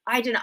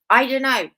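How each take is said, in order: First: Said in the usual way. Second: Louder, punchy I don't know; emphatic shrug. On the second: Acted. Host dismissing the Nobel question, loud and emphatic. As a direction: throw it out with a shrug.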